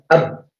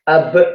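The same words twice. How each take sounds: First: The final b stops abruptly with no release. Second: The final b ends with an audible bouncing release. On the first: "tanpa kita kalau kolahkan terlebih dahulu ya, kita coba matikan. ... Suara kita langsung hilang ya" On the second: "apabila nanti kalau kolah, ... suaranya keluar tapi rasa kuatnya itu masih ada"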